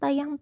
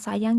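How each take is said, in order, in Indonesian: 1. Kata itu dimulai dengan bunyi t. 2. Kata itu dimulai dengan bunyi s. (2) "Contohnya sayang jadi"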